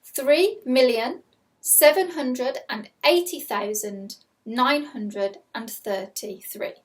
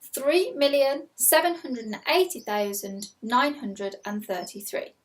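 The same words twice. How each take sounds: First: Slow, clear dictation of a number; slow school dictation. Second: Slow, careful repeat of the number; slow school dictation. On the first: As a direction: read it out slowly for pupils. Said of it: "Here is your first number". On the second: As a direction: dictate it again slowly. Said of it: "I'll read that again". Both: Shown as a demonstration.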